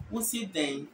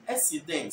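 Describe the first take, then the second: First: "Wosi den" in plain Asante Twi; Twi accent. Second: "Esi den" as Fanti says it; Fanti accent. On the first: Teacher setting Twi against Fanti, Twi accent. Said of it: "Twi will say". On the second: Teacher setting Fanti against Twi, Fanti accent. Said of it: "By Fanti is". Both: Shown as a demonstration.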